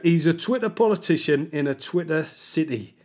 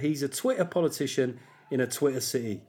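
First: It is said in a put-on Mackem accent. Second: It is said in his normal accent.

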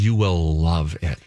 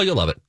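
First: It is said slowly, with strong deliberate emphasis. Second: It is said lightly, in a casual offhand way. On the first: It is a confident, insistent promise. "she emphasizes the word" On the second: It is a passing, offhand remark. "Not like, oh"

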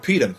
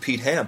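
First: The h is dropped, running the words together. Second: The h in Ham is clearly pronounced.

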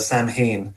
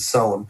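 First: The word is said the American way. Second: The word is said the Irish way.

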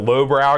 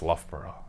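First: The name begins with a 'low' sound. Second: The name begins with a 'luff' sound. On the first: The speaker calls it wrong. "I didn't know how to pronounce it" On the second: The speaker calls it right. "it's Loughborough"

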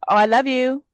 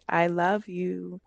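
First: It is said casually and superficially. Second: It is said with deep, heartfelt feeling.

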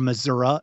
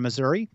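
First: Said in a regional local pronunciation. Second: Said in the speaker's own plain pronunciation.

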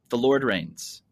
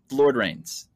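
First: It is said in an American accent. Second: The same.

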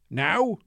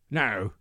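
First: It is said in a Scottish accent. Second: It is said in an Irish accent. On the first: "Say Scottish accent first" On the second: "An Irish accent"

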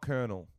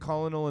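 First: It is said with an r sound, like kernel. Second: It is said as spelled, like colon-el. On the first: This is the usual accepted way to say it. The speaker calls it wrong. "and not Colonel" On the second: This is the proposed new way to say it. The speaker calls it right. "Let's all start pronouncing it Colonel"

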